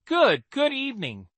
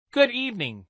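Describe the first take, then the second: First: Nervous stammering greeting; awkward stammer. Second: Said in the usual way. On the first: Acted. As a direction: stumble over the greeting sheepishly. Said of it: "let out an awkward chuckle".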